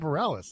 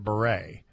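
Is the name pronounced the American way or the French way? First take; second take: American; French. First: The name is said with an American pronunciation. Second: The name is said with a French pronunciation. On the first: This follows how the name's owner says it. The speaker calls it right. "she pronounces it Bareilles, we'll say Bareilles" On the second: This follows the spelling's language of origin. The speaker calls it wrong. "it was the French pronunciation"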